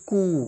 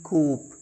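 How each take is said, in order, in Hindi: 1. शब्द स्वर पर खत्म होता है, इसमें P नहीं है। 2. शब्द P की ध्वनि पर खत्म होता है। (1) "दिस इज कू" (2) "न कि कूप"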